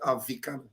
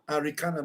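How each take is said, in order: First: The consonant after the first vowel is a V. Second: The consonant after the first vowel is an R. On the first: The speaker calls it wrong. "not Avikana" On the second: The speaker calls it right. "Her name should be Arikana"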